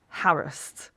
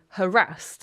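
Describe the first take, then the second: First: It is said to rhyme with embarrassed. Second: It is said not rhyming with embarrassed. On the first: This is the traditional British way. "traditionally in Britain is pronounced harassed, like embarrassed" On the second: This is the common modern way. "people today tend to say harassed"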